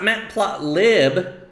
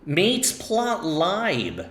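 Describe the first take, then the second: First: The first syllable rhymes with 'cat'. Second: The first syllable rhymes with 'late'. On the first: The speaker calls it wrong. "So it's not matplotlib" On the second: The speaker calls it right. "It's actually mateplotlib"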